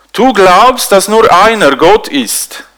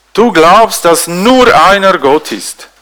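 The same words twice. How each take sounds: No difference in how they are said.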